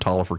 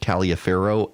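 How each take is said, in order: First: The name is said the local way. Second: The name is said a different, non-local way. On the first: The speaker calls it right. "it's just proof that I know how to pronounce the name" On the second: The speaker calls it wrong. "I made the mistake of calling it Taliaferro"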